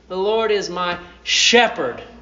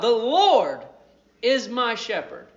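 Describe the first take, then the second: First: The word shepherd is stressed. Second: The word Lord is stressed.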